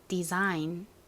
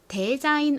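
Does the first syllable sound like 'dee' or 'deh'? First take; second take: dee; deh. First: The first syllable sounds like 'dee'. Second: The first syllable sounds like 'deh'. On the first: The speaker calls it right. "앞부분이 D 이 소리가 난다" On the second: The speaker calls it wrong. "데자인 아니고"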